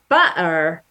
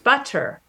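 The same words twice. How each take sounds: First: The middle consonant is a glottal stop. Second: The middle consonant is a clear t sound. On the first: "you use a glottal stop" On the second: "you make a T sound"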